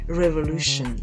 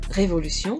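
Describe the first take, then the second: First: It has English vowels and a 'shun' ending. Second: It has French vowels and a French 'sion' ending. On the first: "qui se prononce revolution" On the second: "vous avez le mot révolution"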